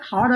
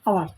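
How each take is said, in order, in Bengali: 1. শব্দটি h ধ্বনি দিয়ে শুরু হয়। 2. শব্দটি স্বরধ্বনি দিয়ে শুরু হয়। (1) "হাওয়ার হবে না" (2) "উচ্চারণ হবে আওয়ার"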